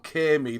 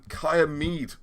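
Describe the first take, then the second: First: The first part is said as one syllable. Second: The first part is said as two syllables. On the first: This is the South Wales way of saying it. "In South Wales, I prefer Caermead" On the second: This is the North Wales way of saying it. "I'm trying to get out of the habit of saying Kaya. I think it's like a sort of modern idea, North Walian"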